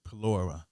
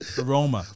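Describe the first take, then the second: First: The word is said with an L sound. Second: The word is said without an L sound. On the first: The speaker calls it wrong. "and I just said it wrong" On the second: The speaker calls it right. "Get the L is silent"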